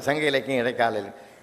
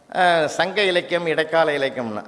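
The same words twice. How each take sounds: First: Softer echo of சங்க இலக்கியம் fading on இடைக்கால இலக்கியம். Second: Said in the usual way. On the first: Shown as a demonstration. The mic echoing the judge's opening words, fading softly. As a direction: play the hall's echo, fading. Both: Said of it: "அதே repeat ஆகுது".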